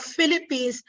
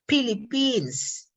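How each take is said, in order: First: Said in the usual way. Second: "Philippines" with P in place of F; hard P at the start of a drawn-out "Philippines"; Filipino-English consonants. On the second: Shown as a demonstration. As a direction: say "Philippines" as pilipins, slowly. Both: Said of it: "instead of Philippines".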